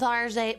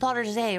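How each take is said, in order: First: It is pronounced the plain English way. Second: It is pronounced in a fancy French style.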